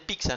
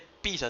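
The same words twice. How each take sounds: First: It is said the Italian way, without accent. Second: It is said with a regional local accent. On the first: The speaker calls it right. "se dice pizza ... En italiano es pizza, sin el acento" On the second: The speaker calls it wrong. "no se dice pizza"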